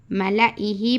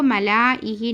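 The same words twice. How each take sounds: First: "मलाइही" with a short "la"; short vowel. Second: "मलाइही" with a long "laa"; wrong long vowel. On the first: Teacher giving the correct reading, मलाइही with short la. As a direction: go quickly from "la" to "ihi" in "मलाइही". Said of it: "मलाइही पढ़ना". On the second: Teacher showing what not to read, मलाइही with laa drawn out. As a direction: stretch the "la" in "मलाइही" before "ihi". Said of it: "इसको मलाइही नहीं पढ़ना". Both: Shown as a demonstration.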